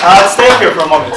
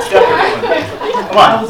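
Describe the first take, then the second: First: Said in the usual way. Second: High, laughing repeat. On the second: Real, not acted. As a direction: say it through giggles.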